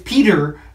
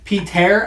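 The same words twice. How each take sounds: First: It ends in R with no vowel before. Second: There is a vowel sound before the final R. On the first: The speaker calls it right. "except there's no E. It's just an R" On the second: The speaker calls it wrong. "I was calling him Peter"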